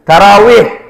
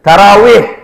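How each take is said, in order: First: The middle consonant is a w sound. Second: The middle consonant is a w sound.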